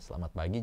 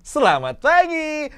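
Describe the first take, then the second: First: The intonation is fairly flat and restrained. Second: The intonation is lively and very dynamic. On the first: It suits a formal public announcement. The speaker calls it right. "Intonasi tidak terlalu bermain, sudah cukup tepat karena ini adalah himbauan" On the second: It is too playful for a formal announcement. The speaker calls it wrong. "jadi nggak mungkin kan"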